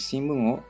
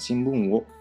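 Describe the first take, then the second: First: The particle is pronounced as a plain o. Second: The particle is pronounced with a w sound. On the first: The speaker calls it right. "tapi shinbun o yomimasu" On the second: The speaker calls it wrong. "bukan shinbun wo yomimashita"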